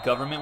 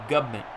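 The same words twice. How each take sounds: First: The word is said with its full standard sounds. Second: The word is said as a clipped 'gubment'. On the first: The speaker calls it wrong. "I don't think you mean government work" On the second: The speaker calls it right.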